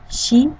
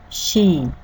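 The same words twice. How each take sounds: First: The vowel is short. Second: The vowel is held twice as long.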